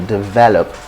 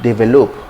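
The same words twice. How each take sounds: First: It is pronounced the standard way. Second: It is pronounced the common local way. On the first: The speaker calls it right. "it's simply develop" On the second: The speaker calls it wrong. "So it's not develop"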